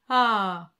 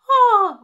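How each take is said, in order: First: It is lower and fuller, in chest voice. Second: It is high and light, in head voice.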